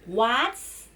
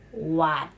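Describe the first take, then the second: First: The syllable ends with an extra s sound. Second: The syllable ends cleanly with no s sound. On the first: The speaker calls it wrong. "No S at all" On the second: The speaker calls it right. "The correctly pronunciation is what"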